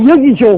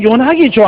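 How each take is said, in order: First: The name is said as Yeogi Jo. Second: The name is said as Yonagi Jo. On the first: People in Southeast Asia say it this way. "동남아에 가니까 ... 여기조 여기조 그래요" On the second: People in France say it this way. "불란서에 가니까 ... 요나기 조 그래요"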